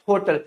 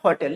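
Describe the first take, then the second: First: होटल said HOE-tl, round "o"; common mispronunciation. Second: होटल said HAW-tl; correct pronunciation. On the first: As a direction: keep the first vowel of होटल a closed "o". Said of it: "आप लोग भी इसे क्या बुलाते होंगे?". (होटल को "होटल" ही, गोल "ओ" से बोलें) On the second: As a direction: open the first vowel of होटल to "aw". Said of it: "सही तरीका क्या होता है बोलने का?". (होटल को "हॉटल" बोलें) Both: Shown as a demonstration.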